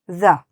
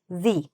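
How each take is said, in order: First: The word ends in a short 'uh' sound. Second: The word ends in a long 'ee' sound. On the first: The next word starts with a consonant. "if it starts with a consonant, then you can just say the" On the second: The next word starts with a vowel. "If the word after that starts with a vowel, then you should say the"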